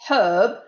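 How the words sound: The word is said with an audible h, British style.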